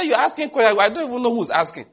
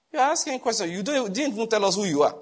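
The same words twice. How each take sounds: First: Loud, high sharp rebuke on the phone. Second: Higher, firmer rebuke; a hint of a stern doctor's tone; rebuking tone. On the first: Retold or imitated. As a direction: snap at the caller with authority. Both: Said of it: "with a kind of tone".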